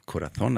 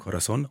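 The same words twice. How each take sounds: First: It is said with a European Spanish accent. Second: It is said with a South American accent.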